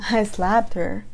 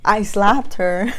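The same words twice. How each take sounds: First: Disbelief. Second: "slapped" drawn out slow and louder, rising at the end; slow mocking repeat. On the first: Retold or imitated. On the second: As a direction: repeat "I slapped her" in slow, loud disbelief. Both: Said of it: "And I'm like".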